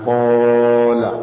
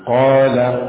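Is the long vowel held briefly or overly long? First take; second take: overly long; briefly. First: The long vowel is stretched out far too long. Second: The long vowel is held for a moderate length. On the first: The speaker calls it wrong. "jangan kola" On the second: The speaker calls it right. "dipanjangkan tidak terlalu dipanjangkan"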